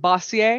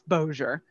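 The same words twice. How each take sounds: First: The name is said with a French-style pronunciation. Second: The name is said with a plain local pronunciation. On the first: The speaker calls it wrong. "that's where the French doesn't kick in" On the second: The speaker calls it right. "It's Bossier"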